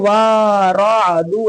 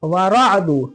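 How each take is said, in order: First: The opening vowel is drawn out long. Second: The opening vowel is short and quick. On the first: The speaker calls it wrong. "ऐसे नहीं" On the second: The speaker calls it right. "जल्दी"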